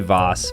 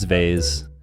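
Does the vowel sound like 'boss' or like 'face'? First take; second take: boss; face. First: The vowel rhymes with 'boss'. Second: The vowel rhymes with 'face'. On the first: The speaker calls it wrong. "Don't say Voss. Voss is so pretentious" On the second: The speaker calls it right. "It's vase"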